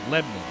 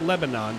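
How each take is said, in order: First: Said the way the local town name sounds. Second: Said the way the Middle Eastern country is named. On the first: This names the local town. The speaker calls it right. "It's Lebanon" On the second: This names the country in the Middle East. The speaker calls it wrong. "that's not Lebanon. That's a country over in the Middle East"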